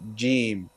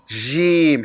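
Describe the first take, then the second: First: The first sound comes with little puff of air. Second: The first sound comes with a strong puff of air. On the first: The speaker calls it right. "you shouldn't feel too much airflow coming out of your mouth" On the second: The speaker calls it wrong. "Shouldn't be Jim"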